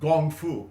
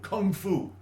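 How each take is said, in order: First: The first word begins with a soft g sound. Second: The first word begins with a hard k sound. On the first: This is the Mandarin form. "the Mandarin Gong Fu" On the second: This is the Cantonese form. "Kung Fu is the Cantonese pronunciation"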